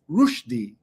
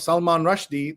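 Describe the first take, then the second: First: The surname is said an unfamiliar, different way. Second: The surname is said the familiar, everyday way. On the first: This is how the author himself says the name. The speaker calls it right. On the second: This is how most people say the name. The speaker calls it wrong. "the way we all say it"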